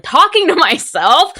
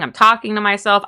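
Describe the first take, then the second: First: Much higher, loud crying shout. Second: Said in the usual way. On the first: Shown as a demonstration. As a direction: wail it out like you're breaking down.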